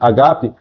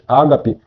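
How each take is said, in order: First: The word is said the original Greek way. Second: The word is said the usual Portuguese way. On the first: This is how the word is said in Greek. "mas a palavra no grego pronuncia-se agape" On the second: This is how the word is said in Portuguese. "nós pronunciamos ágape"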